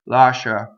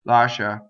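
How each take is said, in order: The two takes are said the same way.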